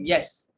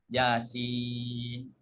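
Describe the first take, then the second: First: The letters are read as one short syllable: yes. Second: The letter names ya and sin are joined: Yasin. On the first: The speaker calls it wrong. "Dia bukan baca Yasin, tapi dia baca dengan yes" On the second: The speaker calls it right. "bermula dengan sebut ya, kemudian sin"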